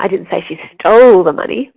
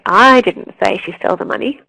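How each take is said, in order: First: The stress falls on the word stole. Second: The stress falls on the word I. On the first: She did something else with it. "but she might have hidden it" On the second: Someone else said it. "it means that someone else said it"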